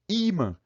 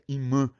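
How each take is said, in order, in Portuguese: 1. A tônica está na primeira sílaba. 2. A tônica está na última sílaba. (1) "Fica com acento" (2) "Isso sem acento"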